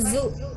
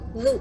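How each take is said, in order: First: It is said with a plain buzzing z sound. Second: The tongue peeks out for a soft th-like sound. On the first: The speaker calls it wrong. "Bukan zu. Zu itu kan kayak zai ya" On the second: The speaker calls it right. "Sedikit lidahnya dikeluarkan. Tipis gitu"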